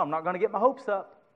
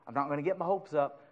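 First: Said in the usual way. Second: I'm not gonna get my hopes up, softer and fast; mock doubtful mutter. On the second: Shown as a demonstration. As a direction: toss it off quickly and softly as a half-hearted doubt. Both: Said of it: "I don't know".

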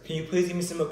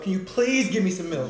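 First: Said in the usual way. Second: Louder, desperate plea for milk; desperate pleading. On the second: Real, not acted. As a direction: beg for it, desperate. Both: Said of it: "repeats plea louder".

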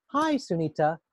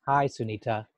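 First: "Hi, Sunita" in a cheerful tone; a bright, lively greeting; different tone. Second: "Hi, Sunita" lower, in a subdued tone; a low, downbeat greeting; different mood. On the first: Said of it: "That tone in my voice suggests". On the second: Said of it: "That tone in my voice suggests ... a different frame of mind". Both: Shown as a demonstration.

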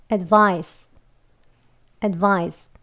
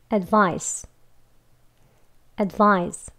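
First: "advice" ending in a thick pushed s; 두껍게 밀어내는 스 "advise". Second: 새어나오는 스 "advice"; light s. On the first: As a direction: push the final s of "advise" out through a small gap. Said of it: "조금 두껍게 밀어내는 것처럼 나오는 발음". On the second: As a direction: let the s of "advice" leak out easily. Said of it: "스 하고 새어나오는 소리". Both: Shown as a demonstration.

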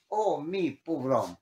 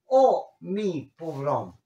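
First: Said in the usual way. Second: A slow, drawn-out oh mi pobrón; mock lament. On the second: Shown as a demonstration. Teacher acting a self-pitying sigh as an example. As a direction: sigh it out slowly. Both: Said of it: "Capel dice co".

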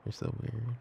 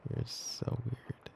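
First: Said in the usual way. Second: Slow, drawn-out whisper. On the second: Acted. Girlfriend fondly teasing her partner for calling her kitty, slow whisper. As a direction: breathe it out slowly, fondly teasing.

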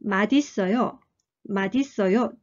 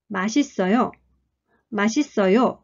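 First: 맛있어요 linked as ma-di-sseo-yo, the t carried over as a d; 맛있어요 as ma-di-sseo-yo, clear linked d; linked madisseoyo. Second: 맛있어요 run together as one word, ma-shi-sseo-yo; 맛있어요 as ma-shi-sseo-yo, no d sound; native masisseoyo. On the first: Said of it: "「ま」っていうのは連音されて". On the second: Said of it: "母語話者はまるで一つの単語のように". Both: Shown as a demonstration.

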